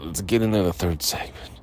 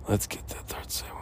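First: Said in the usual way. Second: Unvoiced whisper. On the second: Shown as a demonstration. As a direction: breathe it out as a whisper. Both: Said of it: "repeats it in a whisper".

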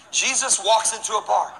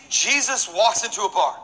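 No difference in how they are said.

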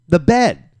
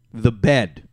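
First: "The bed" said louder, with bed punched; stress on bed. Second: Said in the usual way. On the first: Real, not acted. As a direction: hit "bed" hard and loud, disbelief at his own act.

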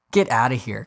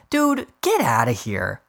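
First: Said in the usual way. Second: Slow, dismissive brush-off. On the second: Real, not acted. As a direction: wave it away. Dismissing reporter.

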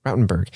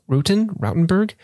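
First: Said in the usual way. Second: "Rutten, Rautenberg?" tried high, rising like a question; unsure pronunciation. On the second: Real, not acted. Host attempting a patron's surname, "Rautenberg" as a question. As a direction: test "Rautenberg" with a questioning lift.

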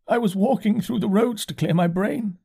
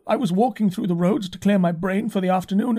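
First: High, hollow curate voice; dazed curate. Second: Complaining curate. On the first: Curate repeating himself to the narrator, high and dazed. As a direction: repeat it high, like a man in shock. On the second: Curate recalling his walk to the narrator, high and rising. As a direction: tell it high, rising, bewildered. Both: A narrator's reading.

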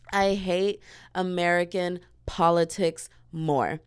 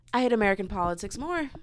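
First: Deliberate, word by word; measured, weighty repetition; slow emphatic. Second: Said in the usual way. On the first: Real, not acted. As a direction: spell it out slowly, pausing between words. Repeats statement slowly for emphasis.

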